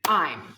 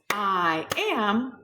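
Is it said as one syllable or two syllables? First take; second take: one syllable; two syllables. First: It is said as one short syllable. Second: It is said as two full syllables. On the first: "we say I'm" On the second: "instead of saying two syllables"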